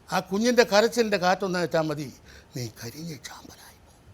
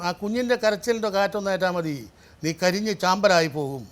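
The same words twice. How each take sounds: First: The line is said quietly, without shouting. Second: The line is shouted loudly.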